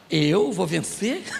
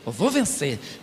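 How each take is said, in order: First: The voice rises at the end, like a question. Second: The voice falls at the end, like a statement. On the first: The speaker now doubts winning. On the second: The speaker is certain of winning.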